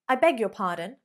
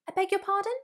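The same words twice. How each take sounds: First: The voice falls at the end. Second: The voice dips then rises at the end. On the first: The speaker is offended by what was said. "you are not happy with someone" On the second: The speaker did not hear what was said. "Hear that down up intonation"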